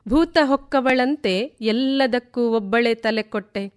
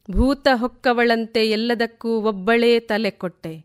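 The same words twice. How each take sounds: The two takes are said the same way.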